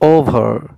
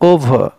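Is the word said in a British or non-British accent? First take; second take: non-British; British. First: It is said in a non-British accent. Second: It is said in a British accent.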